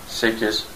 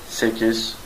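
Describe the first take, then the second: The two takes are said the same way.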